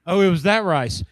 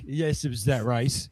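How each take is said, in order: First: High, loud teasing daughter; mock daughter voice. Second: Said in the usual way. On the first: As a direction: sing it out like a teasing kid. Daughters quoted mocking dad.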